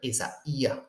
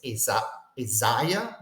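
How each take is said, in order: First: Isaiah as e-za-EE-a, slowly, vowels kept apart; accent on the iota. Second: Isaiah as e-ZA-ya, "ai" run together as one diphthong; diphthong pronunciation. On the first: Teacher correcting the reading for students, Isaiah as e-za-EE-a, accent on the "ee". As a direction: split the diphthong in Isaiah and stress the separate "ee". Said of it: "The accent is on the yod".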